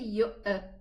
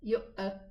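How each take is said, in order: First: The glottal stop is released with an echoing bounce. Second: The glottal stop is released with an echoing bounce.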